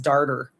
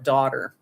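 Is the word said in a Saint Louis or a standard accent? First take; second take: Saint Louis; standard. First: It is said with a Saint Louis 'ar' sound. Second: It is said with a standard 'aw' sound. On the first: "I was my dad's darter" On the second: "instead of daughter"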